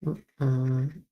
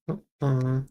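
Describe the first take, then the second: No difference in how they are said.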